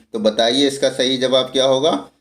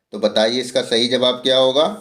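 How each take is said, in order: No difference in how they are said.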